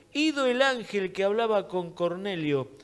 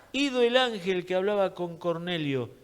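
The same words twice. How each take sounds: The two takes are said the same way.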